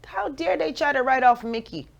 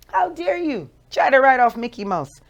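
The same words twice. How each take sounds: First: Said in the usual way. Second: Indignant. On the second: Shown as a demonstration.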